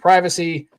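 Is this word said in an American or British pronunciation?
American. It is said with an American pronunciation. "I say privacy. Most Americans say it that way"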